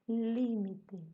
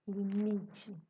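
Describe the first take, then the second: First: The stress falls where Spanish places it. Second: The stress falls where Portuguese places it.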